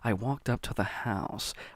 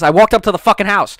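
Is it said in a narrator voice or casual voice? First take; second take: narrator; casual. First: It is said in a stretched narrator voice. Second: It is said in a casual everyday voice.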